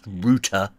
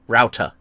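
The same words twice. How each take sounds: First: The first vowel is an 'oo' sound, like root. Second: The first vowel is not an 'oo' sound. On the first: The speaker calls it wrong. "it's not pronounced router. There's no two O's like root beer" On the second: The speaker calls it right. "Okay, it's router"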